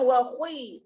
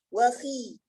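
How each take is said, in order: First: The kha is very heavy, with a u-like colour. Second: The kha is only lightly heavy, with a clear i. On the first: The speaker calls it wrong. "kita mubalaghah dalam tafkhim kha, tapi dia dalam keadaan kasrah" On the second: The speaker calls it right. "derajat tafkhimnya yang rendah"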